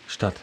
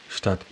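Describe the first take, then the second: The two takes are said the same way.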